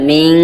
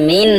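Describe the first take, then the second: First: মিং with a long hum inside the nose; nasal ghunnah. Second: মিন ending in a short plain n; short "min" for মিন; wrong pronunciation. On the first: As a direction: end মিং on a held "ng". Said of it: "নাকের ভিতরে গিয়ে হবে". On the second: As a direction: say মিন with the tongue-tip n, unheld. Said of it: "এটা মিন হবে না". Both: Shown as a demonstration.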